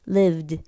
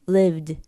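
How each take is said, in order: First: The final d is heavy and fully released. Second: The same.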